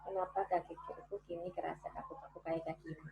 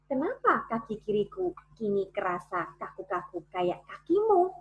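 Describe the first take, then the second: First: The words are mumbled with the mouth barely open. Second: The words are clearly and fully articulated. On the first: The speaker calls it wrong. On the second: The speaker calls it right.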